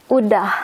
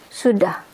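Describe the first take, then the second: First: "udah" starting straight on the u, no s; S skipped. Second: "sudah" with the initial s sounded; formal full form. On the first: Teacher showing what you mostly hear, S skipped. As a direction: say "udah" as sudah minus its first sound. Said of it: "we skip the S". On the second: Teacher contrasting the formal word with udah, S kept. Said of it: "The formal word for that is sudah". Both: Shown as a demonstration.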